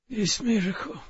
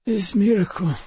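First: Put-on rasping, higher and soft, Russian accent; raspy Russian voice. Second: Raspy Russian voice. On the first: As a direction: rasp it out, dying, Russian accented. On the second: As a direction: rasp weakly with a Russian accent. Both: A narrator's reading. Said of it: "he rasped".

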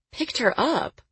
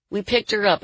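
First: High-pitched disbelieving question; incredulous echo. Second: Said in the usual way. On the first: Acted. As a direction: throw it back high, falling at the end. Woman echoes it in disbelief.

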